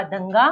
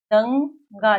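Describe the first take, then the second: First: Said in the usual way. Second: दंगा drawn out and loud, falling; syllable by syllable. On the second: Shown as a demonstration. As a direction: stretch दंगा as दं... गा. (दंगा को खींचकर बोलें) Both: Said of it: "साथ-साथ में इसका उच्चारण भी करते".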